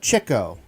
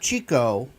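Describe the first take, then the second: First: The first vowel sounds like in chick. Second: The first vowel sounds like in cheek. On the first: The speaker calls it right. "but Chico ... he was the one to pick up chicks" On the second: The speaker calls it wrong. "not Chico"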